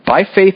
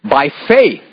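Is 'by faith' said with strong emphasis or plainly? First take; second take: plain; emphatic. First: The words are read plainly, without extra force. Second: The words are read with strong, forceful emphasis. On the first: The speaker calls it wrong. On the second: The speaker calls it right.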